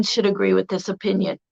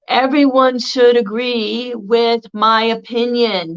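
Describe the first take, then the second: First: Said in the usual way. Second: Slow, self-righteous insistence; insistent opinion. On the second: Retold or imitated. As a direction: lay it down as the only truth.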